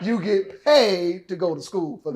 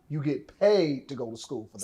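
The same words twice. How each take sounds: First: It is said louder, with more force. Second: It is said at normal volume.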